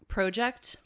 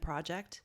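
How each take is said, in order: First: The word is said with a Canadian pronunciation. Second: The word is said with an American pronunciation. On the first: "Like we say um" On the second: "instead of produce and project"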